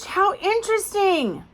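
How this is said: It sounds excited and interested. The speaker is really interested. "Oh my gosh"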